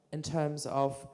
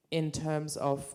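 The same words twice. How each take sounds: The two takes are said the same way.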